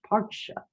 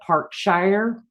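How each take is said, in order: First: It is said in a British accent. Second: It is said in an American accent.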